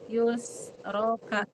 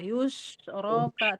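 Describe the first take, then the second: First: The middle consonant is an 's' sound. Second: The middle consonant is an 'sh' sound. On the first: The speaker calls it wrong. "terus Ibu sin, kan beda, Ibu menyalahi" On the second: The speaker calls it right. "pakai sya"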